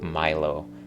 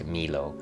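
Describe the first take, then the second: First: The name is read with English vowel sounds. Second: The name is read with Spanish vowel sounds. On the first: "heard her call it Milo" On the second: "we spoke Spanish, and you read the letters M I L O as Milo"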